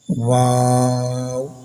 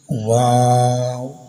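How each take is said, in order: First: The name ends with a closing w sound. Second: The same.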